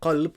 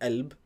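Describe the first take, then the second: First: The word begins with a deep q sound. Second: The word begins with a glottal stop. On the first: This is the standard form. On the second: This is the Egyptian dialect form.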